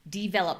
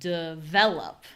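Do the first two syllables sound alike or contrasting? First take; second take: alike; contrasting. First: The first two syllables sound very similar. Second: The first two syllables sound clearly different. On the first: The speaker calls it wrong. "this makes D and V sound a little too similar" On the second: The speaker calls it right. "We want it to be a little bit more contrast"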